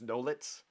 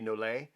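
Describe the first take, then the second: First: The name ends with a 'ts' sound. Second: The name ends on a vowel sound. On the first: "but I think it's Nolitz" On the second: "It could be Nolay"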